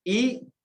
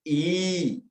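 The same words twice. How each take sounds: First: First ई short, one beat; short vowel. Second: Second ई held long, two beats; long vowel. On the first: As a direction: keep ई brief. (ई का ह्रस्व, छोटा उच्चारण) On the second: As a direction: draw ई out. (ई का दीर्घ, लंबा उच्चारण) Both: Shown as a demonstration. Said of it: "ह्रस्व दीर्घ".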